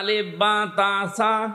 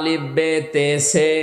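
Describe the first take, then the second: First: The letter names end in an 'a' vowel. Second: The letter names end in an 'e' vowel. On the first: This is the newer recitation. The speaker calls it right. "এটা সঠিকটা।" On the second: This is the older traditional recitation. The speaker calls it wrong. "আগে পড়তো আলিফ বে তে সে"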